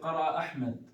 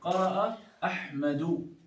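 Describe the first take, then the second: First: The last word ends without a final vowel. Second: The last word ends with a final vowel. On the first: "I'm trying not to give a haraka to the last letter" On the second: "The correct thing I say"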